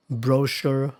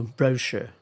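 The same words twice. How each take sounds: First: Brochure stressed on the second syllable; stress contrast. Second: Brochure stressed on the first syllable; stress contrast. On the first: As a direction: say brochure as "broh-SHUR". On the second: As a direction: say brochure as "BROH-shuh". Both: Shown as a demonstration. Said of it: "here are more examples".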